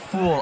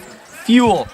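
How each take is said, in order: First: The vowel has no y glide, like fool. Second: The vowel has a y glide, like fuel. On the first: The speaker calls it wrong. "not fool" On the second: The speaker calls it right. "It's pronounced fuel"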